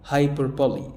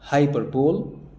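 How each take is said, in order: First: It ends in two syllables, 'bo-lee'. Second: It ends in a single 'bowl' syllable. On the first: The speaker calls it right. "اسمها هايبربولي" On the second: The speaker calls it wrong. "قلت هايبربول. لا"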